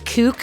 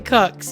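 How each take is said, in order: First: The vowel is long, like in 'kook'. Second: The vowel is short, like in 'cook'. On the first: The speaker calls it wrong. "Did I just say Kooks again?" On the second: The speaker calls it right. "Definitely Cooks"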